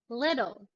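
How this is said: American accent; the T sounds like a D. "with the American English accent first"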